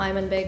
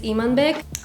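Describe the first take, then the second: First: The name is said in an anglicized way. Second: The name is said the Kazakh way. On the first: "I'm gonna just call him Aymanbek because a lot of you don't know the Kazakh way" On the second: "the Kazakh way of pronouncing that name, which is Imanbek"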